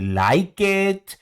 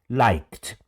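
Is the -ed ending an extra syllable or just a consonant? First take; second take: extra syllable; just consonant. First: The ending is said as an extra syllable. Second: The ending is said as just a consonant. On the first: The speaker calls it wrong. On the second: The speaker calls it right.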